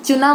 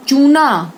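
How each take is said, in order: First: चुना with a quick short U; short vowel. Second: चूना loud with a long OO; long vowel. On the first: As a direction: keep the first syllable of चुना brief. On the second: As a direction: stretch the first syllable of चूना. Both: Shown as a demonstration. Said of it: "उच्चारण पर ध्यान दीजिए".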